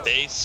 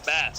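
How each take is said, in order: First: It is pronounced like the musical instrument. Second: It is pronounced like the fish. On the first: "if you're a musician, that's a bass" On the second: "if you like to fish, it's a bass"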